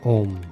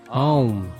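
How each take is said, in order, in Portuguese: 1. É um único som de oh simples. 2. Começa com um som de ah aberto. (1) "Não é Om" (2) "Você abre a boca e diz Ah"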